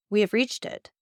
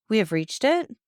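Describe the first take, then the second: First: Said in the usual way. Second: Higher, questioning echo with understated sadness; a touch of sadness, rising at the end; sad repetition. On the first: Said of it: "repeated the traveler". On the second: A narrator's reading. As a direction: repeat it as a mildly sorrowful question. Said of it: "in an accent of indescribable sadness".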